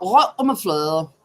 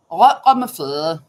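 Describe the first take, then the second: First: Said in the usual way. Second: Imitating a throaty Danish accent, louder. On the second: Shown as a demonstration. Host mimics how Danes talk, in a throaty Danish accent. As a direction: say it like a Dane with a potato in the throat. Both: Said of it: "They talk like this".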